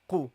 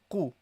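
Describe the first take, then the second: First: The first consonant is a deep throat q. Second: The same.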